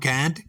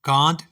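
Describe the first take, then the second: First: It is said with an American pronunciation. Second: It is said with a British pronunciation.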